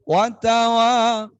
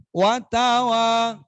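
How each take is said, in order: Both takes have the same delivery.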